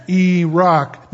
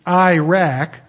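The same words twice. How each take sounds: First: Iraq drawn out as "ee-ROCK"; long "ee", open "ah" in Iraq; correct Iraq. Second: Iraq punched loud as "EYE-rack"; hard "eye" and short "a" in Iraq; military Iraq. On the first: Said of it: "But it's Iraq". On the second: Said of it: "the American military pronounces it". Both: Shown as a demonstration.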